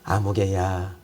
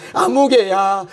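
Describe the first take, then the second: First: 아무개야 said much lower and softer, intimate; tender call. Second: Calling out. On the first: God calling a believer by name, softly. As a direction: murmur 아무개야 as a gentle invitation. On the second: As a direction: call 아무개야 out as if across a room. God calling a person by name. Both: Acted.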